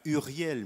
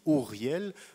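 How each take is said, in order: First: The first vowel is a front rounded 'u'. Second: The first vowel is an 'oo' sound. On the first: This is the French pronunciation. "En français, on prononce U" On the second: This is the Hebrew pronunciation. "en hébreu, le son U n'existe pas, on dit Uriel"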